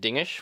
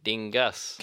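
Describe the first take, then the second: First: The word ends with an 'ish' sound. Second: The word ends with an 'us' sound. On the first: This is how Dutch speakers say it. "while they pronounce it dingish" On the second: This is how English speakers say it. "we go with dingus"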